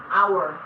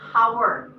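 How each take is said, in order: First: The word begins with a vowel, no h sound. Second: The word begins with an audible h sound. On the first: The speaker calls it right. "Silent. You say hour" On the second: The speaker calls it wrong. "You don't say hour"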